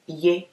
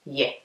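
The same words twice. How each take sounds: First: "ye" with a closed e sound; tight, closed vowel on "ye"; Akuapem pronunciation. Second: Said in the usual way. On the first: Shown as a demonstration. Teacher contrasting regional forms for learners, closed Akuapem vowel. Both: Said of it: "okay, ye instead of ye".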